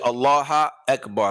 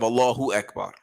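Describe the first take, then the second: First: Allah ends without a vowel before Akbar. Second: Allah ends with a 'u' vowel before Akbar. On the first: The speaker calls it wrong. "a person makes a mistake and changes the i'rab" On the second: The speaker calls it right. "instead of Allahu Akbar"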